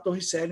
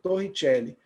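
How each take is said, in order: First: The name is said with a Portuguese pronunciation. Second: The name is said with an Italian pronunciation. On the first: "eu costumo falar Torricelli mesmo" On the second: "Para quem é italiano"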